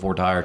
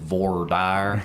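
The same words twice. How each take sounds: First: It is said in a standard pronunciation. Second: It is said with a South Georgia pronunciation.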